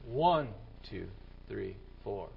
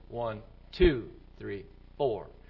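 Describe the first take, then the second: First: The stress falls on one and three. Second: The stress falls on two and four. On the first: This is the regular beat. "The right beat would be" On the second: This is the rock beat. "The rock beat is"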